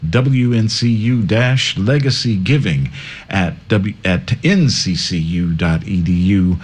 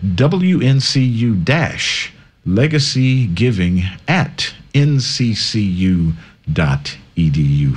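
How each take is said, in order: First: It is read at a faster pace. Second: It is read at a slower pace.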